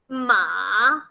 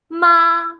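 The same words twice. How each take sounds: First: The pitch dips down, then rises. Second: The pitch stays high and level. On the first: It means horse. "first down, then up" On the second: It means mother. "very flat"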